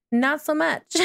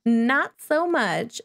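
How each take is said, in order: First: Said in the usual way. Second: Slow, drawn-out echo through a laugh; laughing repeat. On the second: Shown as a demonstration. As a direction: repeat it slowly, chuckling at the baby.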